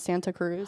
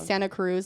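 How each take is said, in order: First: The T in Santa is clearly pronounced. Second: The T in Santa is dropped. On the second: "say Santa Cruz"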